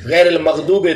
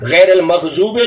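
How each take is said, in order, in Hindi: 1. -oobe से पहले का व्यंजन d-like ध्वनि है। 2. -oobe से पहले का व्यंजन z-like ध्वनि है। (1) "दी बजाय" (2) "च पढ़े"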